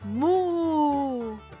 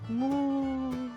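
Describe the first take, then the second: First: It is said loudly. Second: It is said quietly. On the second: "Ahora bajito"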